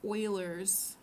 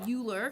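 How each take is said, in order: First: The name begins with an 'oy' sound. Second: The name begins with a 'you' sound. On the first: The speaker calls it right. "if you want to sound smart, then you're going to pronounce it Euler's number" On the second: The speaker calls it wrong. "some students might accidentally say Euler because that's what it looks like"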